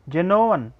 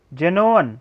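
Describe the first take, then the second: No difference in how they are said.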